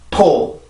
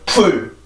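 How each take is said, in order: First: The vowel is a short, lax, open sound. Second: The vowel is a tense, long 'oo' sound. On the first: The speaker calls it right. "반드시 포 이렇게 발음을 해주셔야 돼요" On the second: The speaker calls it wrong. "절대로 풀 이런 발음이 아닙니다"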